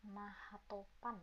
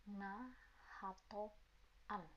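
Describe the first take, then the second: First: Said in the usual way. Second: "Nahatopan" very slowly, pausing between its parts; soft, slow teaching split of "Nahatopan"; broken into parts. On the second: Shown as a demonstration. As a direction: spell out "Nahatopan" piece by piece, softly.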